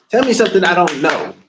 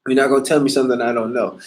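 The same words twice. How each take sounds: First: Louder and higher, stress on Tell; daring them to tell him something new; emphatic challenge. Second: Said in the usual way. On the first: Real, not acted. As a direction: throw the challenge down hard. Repeats line more forcefully.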